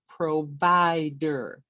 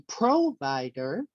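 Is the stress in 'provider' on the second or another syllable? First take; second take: second; another. First: The stress falls on the second syllable. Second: The stress falls on another syllable. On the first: The speaker calls it right. "It's on the second syllable" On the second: The speaker calls it wrong. "We don't say provider"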